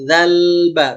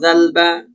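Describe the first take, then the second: First: The l sound is held before the b. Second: The l sound is rushed and very short. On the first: The speaker calls it right. "Tahan dulu" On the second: The speaker calls it wrong. "zalba itu termasuk kesalahan"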